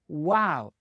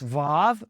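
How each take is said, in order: First: The word begins with a W sound. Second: The word begins with a V sound. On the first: The speaker calls it right. "it was a wow. It made the W sound" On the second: The speaker calls it wrong. "you may pronounce this Vav, but that is incorrect and non-original"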